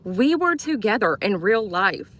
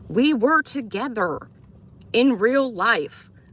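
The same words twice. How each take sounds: First: It is said at normal speed. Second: It is said more slowly, word by word.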